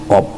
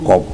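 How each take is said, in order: First: The word ends with a p sound. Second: The word ends with a p sound.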